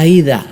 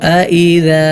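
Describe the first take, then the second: First: The two vowels merge into one gliding 'ai' sound. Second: The two vowels are kept apart as separate sounds. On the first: The speaker calls it wrong. "ഇവിടെ പലരും ഓതാറുള്ളത് ഐദ എന്നാണ്" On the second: The speaker calls it right. "അങ്ങനെയല്ല"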